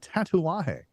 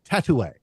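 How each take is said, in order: First: The word ends with a full 'ah-hay' sound. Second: The word ends with a short 'ay' sound. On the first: The speaker calls it right. "every time Tim ti tries to pronounce a Tatuaje" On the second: The speaker calls it wrong. "it comes out Tatoué"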